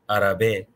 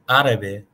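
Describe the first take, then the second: First: The stress is on a later syllable. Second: The stress is on the first syllable. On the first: The speaker calls it wrong. "you would never pronounce it árabe or árabe" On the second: The speaker calls it right. "the accent is over the first syllable"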